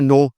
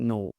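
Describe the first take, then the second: First: It is said sharply and sternly. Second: It is said softly and kindly. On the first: The speaker calls it wrong. "इस तरह नहीं है नो, गलत, इतना सख्ती भी नहीं है" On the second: The speaker calls it right. "बड़े प्यार से भी नो"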